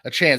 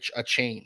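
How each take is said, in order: First: The second syllable rhymes with 'can'. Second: The second syllable rhymes with 'cane'. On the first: The speaker calls it right. "He wants he wants he wants to be called Devon A. Chan" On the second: The speaker calls it wrong. "not a, a chain. So I I've been pronouncing it wrong"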